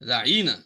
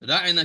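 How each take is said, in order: First: The word is said with a drawn-out vowel. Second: The word is said without a drawn-out vowel. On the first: "उसको थोड़ा सा खींचते थे" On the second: "रायना की बजाय"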